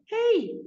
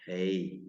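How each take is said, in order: First: Very high squeaky voice; squeaky high hey. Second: Low, soft deep-voiced hey; deep manly hey. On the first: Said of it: "instead of". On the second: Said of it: "you want him to sound". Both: Shown as a demonstration.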